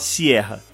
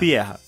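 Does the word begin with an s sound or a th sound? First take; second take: s sound; th sound. First: The word begins with an s sound. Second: The word begins with a th sound. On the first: The speaker calls it wrong. "Você não fala sierra" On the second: The speaker calls it right. "trocar o S pelo TH"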